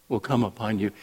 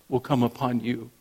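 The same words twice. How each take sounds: Both takes have the same delivery.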